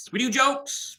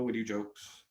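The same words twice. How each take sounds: First: Squeaky high. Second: Said in the usual way. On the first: Acted. Repeats the line after a joke.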